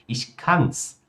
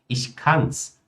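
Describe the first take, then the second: No difference in how they are said.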